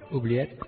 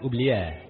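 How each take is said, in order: First: The final t sound is clearly pronounced. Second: The final t sound is left silent. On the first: The speaker calls it right. "you make noise with them" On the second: The speaker calls it wrong. "I thought you didn't pronounce it"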